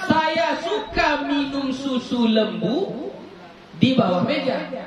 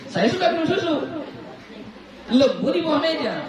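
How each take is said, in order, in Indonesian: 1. Tidak ada jeda antara susu dan lembu. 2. Ada jeda antara susu dan lembu. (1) "saya minum susu di bawah meja. Susu apa yang diminum? Susu lembu" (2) "Itu maksudnya"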